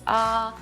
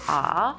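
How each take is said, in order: First: The pitch stays level and flat. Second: The pitch dips down then rises. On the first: "like a flat tone" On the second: "it's kind of like a twist"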